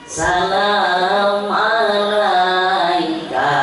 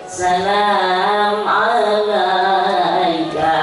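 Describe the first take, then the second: Both takes have the same delivery.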